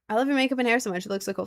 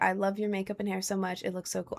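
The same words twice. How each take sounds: First: It is read in a natural, ordinary voice. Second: It is read in an awkward, unnatural voice.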